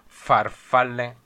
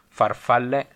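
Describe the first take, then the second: First: The f sound is long with strong friction. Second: The f sound is short and light. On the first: "per voi è più farfalle" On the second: "per me sono più corta"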